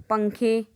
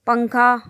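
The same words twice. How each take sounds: First: Teacher drops down on the plural पंखे, ending on ए; पंखे answers पंखा, falling away; plural form. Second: Teacher calls out पंखा with a lift on the final आ; पंखा named first, held up as the singular; singular form. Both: Shown as a demonstration.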